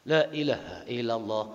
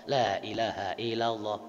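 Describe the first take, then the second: The two takes are said the same way.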